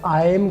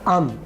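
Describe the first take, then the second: First: The vowel is a full 'eye' glide. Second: The vowel is a short 'uh' merged in. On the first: "आयम को हम बोलेंगे अम" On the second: "shortest sound लेके और उसको अगले लफ्ज़ के साथ मिला देंगे"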